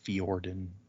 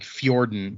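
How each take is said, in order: First: The name begins with 'fee' then 'or'. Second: The name begins with a 'fyor' glide. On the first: "it's just Fee, F E E, and then or" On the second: "The way I was saying it is like Nordic"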